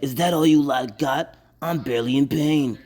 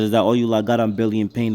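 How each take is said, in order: First: It is said in a put-on character voice. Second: It is read in his normal voice.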